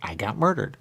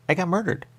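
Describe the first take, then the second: First: Said in the usual way. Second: Pitched up high on murdered; shocked exclamation. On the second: Real, not acted. Saying it again in disbelief, pitched high.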